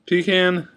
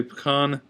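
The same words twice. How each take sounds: First: Said in the usual way. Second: "pecan" as "puh-KAHN"; others' pronunciation. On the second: Shown as a demonstration. Vlogger showing how some say it, puh-KAHN pronunciation. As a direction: stress the open AH in "pecan". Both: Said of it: "Some people say pecan".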